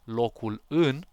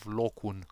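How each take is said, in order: First: Both words are said fully, with three syllables. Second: The words merge into two syllables, dropping sounds. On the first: "instead of locul în" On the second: "you actually win one uh, syllable"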